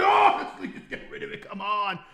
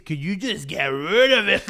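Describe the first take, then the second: First: High, thin pleading; hammed-up desperate whine; mock begging. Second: Said in the usual way. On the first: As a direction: beg in an exaggerated squeak. Mock begging God, second take.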